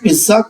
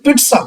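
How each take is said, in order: First: The middle consonant sounds like 'dz'. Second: The middle consonant sounds like 'ts'. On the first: This is the form commonly used in India. "लेकिन पिज्जा चलता है, ये accepted है" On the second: This is the dictionary pronunciation. "सही उच्चारण पिट्सा होता है"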